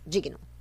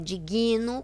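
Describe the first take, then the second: First: No vowel follows the g. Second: An extra i vowel follows the g. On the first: The speaker calls it right. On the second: The speaker calls it wrong.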